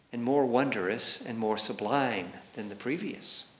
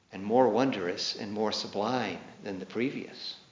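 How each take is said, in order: The two takes are said the same way.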